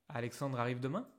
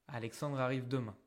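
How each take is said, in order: Both takes have the same delivery.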